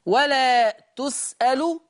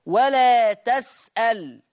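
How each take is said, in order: First: تسأل said tus'alu, with damma on ta; u on both ta and lam of تسأل; Hafs reading. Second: تسأل said tas'al, fatha on ta; a after ta, vowelless lam in تسأل; Warsh reading. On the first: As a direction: say ولا تسأل as wa-laa tus'alu. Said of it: "قرأ حفص بضم التاء". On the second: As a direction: say ولا تسأل as wa-laa tas'al. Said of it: "ورش يقرأ بفتح التاء". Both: Shown as a demonstration.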